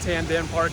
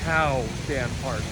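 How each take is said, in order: First: The first syllable ends with an 'n' sound. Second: The first syllable ends with a vowel sound. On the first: The speaker calls it wrong. "it's not Tan Dan Park" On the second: The speaker calls it right. "it's Tao Dan Park"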